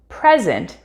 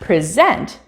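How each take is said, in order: First: The stress is on the first syllable. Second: The stress is on the second syllable. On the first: It is a noun meaning a gift. "present refers to a gift" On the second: It is a verb meaning to give formally. "present refers to something being given formally"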